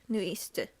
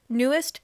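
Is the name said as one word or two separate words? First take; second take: two words; one word. First: It is said as two separate words. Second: It is run together as one word. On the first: The speaker calls it right. "is it New East? Yeah, yeah" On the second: The speaker calls it wrong. "Newest isn't even how you're supposed to pronounce it"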